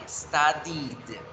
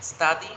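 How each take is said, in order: First: "studied" slowly, with a clear "-did" ending; past ending demonstrated. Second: Said in the usual way. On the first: Shown as a demonstration. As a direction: say "studied" stretched, landing on the final d. ("studied" lento, marcando el final "-did") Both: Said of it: "Por ejemplo".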